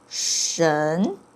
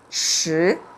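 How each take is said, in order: First: The syllable ends with an n sound. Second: The syllable ends in a plain vowel. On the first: It is the reading used in the word for what. "when it pronounced as 神" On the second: It is the reading that means mixed. "it could pronounce differently, and it's 十"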